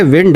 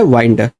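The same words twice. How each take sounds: First: विंड rhyming with "pinned"; short "ih" vowel in विंड; short-i pronunciation. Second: वाइंड rhyming with "kind"; long gliding i in वाइंड; long-i pronunciation. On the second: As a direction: say वाइंड with an "eye" vowel. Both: Shown as a demonstration. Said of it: "sound different है, meaning different है".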